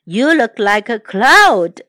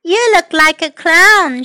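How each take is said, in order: First: Oliver. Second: Put-on high child character voice; Amanda. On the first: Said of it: "said Oliver". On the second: Girl teases Oliver about his looks, high voice. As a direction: pitch it up for the girl. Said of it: "Amanda looked at Oliver". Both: A narrator's reading.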